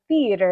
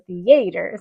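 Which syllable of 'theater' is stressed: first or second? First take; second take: first; second. First: The stress is on the first syllable. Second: The stress is on the second syllable. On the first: This is how the speaker says it. "I'm like theater" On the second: This is how the other person says it. "you're theater"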